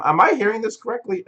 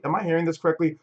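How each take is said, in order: First: Incredulous. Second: Said in the usual way. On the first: Real, not acted. Disbelief at viewers hating music.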